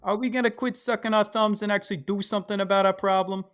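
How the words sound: It is said in a Sopranos-style mobster accent.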